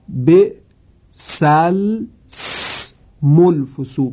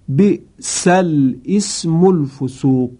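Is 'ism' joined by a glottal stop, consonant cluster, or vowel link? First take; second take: consonant cluster; glottal stop. First: Unvoweled l and s clash in a cluster. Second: A glottal stop begins the word ism. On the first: "دو حرف ساکن لام و سین در کنار هم قرار می گیرن" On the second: "که این صحیح نیست و اشتباه هست"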